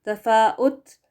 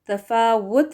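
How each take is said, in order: First: A glottal stop comes before the u vowel. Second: The middle consonant is a rounded w sound. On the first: The speaker calls it wrong. "हमजा पेश लगाकर पढ़ना ये भी गलत होगा" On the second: The speaker calls it right. "डब्ल्यू के साथ वो करेक्ट है"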